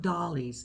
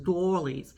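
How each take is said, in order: First: The first vowel sounds like 'doll'. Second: The first vowel sounds like 'doy'. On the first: The speaker calls it wrong. "it's not dollies" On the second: The speaker calls it right. "pronounce it right. It's doilies"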